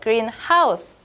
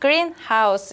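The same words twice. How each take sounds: First: The stress falls on house. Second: The stress falls on green. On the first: It is a house that is green. "뒤에 하우스에 스트레스를 주면" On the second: It is a building for growing plants. "그린에 강세를 줘서 그린하우스 이렇게 하면"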